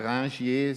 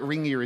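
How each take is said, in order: First: The name is said with French pronunciation. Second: The name is said with English pronunciation. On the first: "originally, it's a French name" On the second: "Ringier is okay in English"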